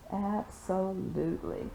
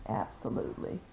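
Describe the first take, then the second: First: Said in the usual way. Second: Whispered. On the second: Real, not acted.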